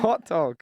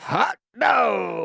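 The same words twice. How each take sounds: First: It is said in a sincere, positive tone. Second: It is said in a sarcastic, facetious tone. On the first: The speaker is genuinely happy about the news. The speaker calls it right. "non-ironic, positive reaction" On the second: The speaker is mocking the news. The speaker calls it wrong. "Sounded sarcastic"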